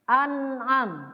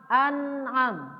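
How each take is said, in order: The two takes are said the same way.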